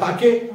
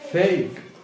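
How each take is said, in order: First: An extra vowel is sounded after the k. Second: The word ends on the k sound. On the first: The speaker calls it wrong. "आपण मुळाक्षरानुसार पाठ केलं तर फेके किंवा फाके" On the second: The speaker calls it right. "म्हणजे इथं काय फेक"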